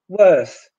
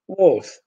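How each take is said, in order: First: The vowel is the English er sound. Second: The vowel is replaced by a Polish o. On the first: The speaker calls it right. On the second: The speaker calls it wrong.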